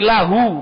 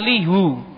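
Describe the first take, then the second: First: The vowel after the L is 'a'. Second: The vowel after the L is 'i'. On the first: The speaker calls it right. "kalau masuk kepada domir maka jadi lahu" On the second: The speaker calls it wrong. "bukan lihu"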